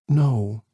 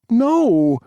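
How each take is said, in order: First: It is said softly and gently. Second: It is said loudly, like a bark.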